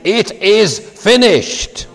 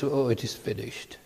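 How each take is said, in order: First: It is said as a strong, proud declaration. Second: It is said as a weak, pained groan.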